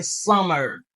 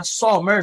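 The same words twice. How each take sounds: First: "summer" with a short UH, "SUH-mer"; American "summer", first vowel as in "sun", r-coloured ending; correct pronunciation. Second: "summer" with an open AW vowel, like "saw-mèr"; wrong pronunciation. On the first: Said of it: "Se summer". (di "summer" kòrèkteman, tankou "sœmè") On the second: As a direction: say "summer" French-style as "so-MÈR". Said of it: "Di pa summer". (di "summer" mal, tankou "sòmè") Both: Shown as a demonstration.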